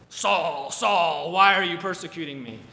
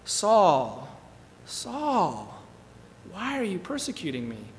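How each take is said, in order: First: The voice sounds rough and harsh. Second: The voice sounds soft and tender. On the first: "it was not a really rough" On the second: "more of a soft, passionate"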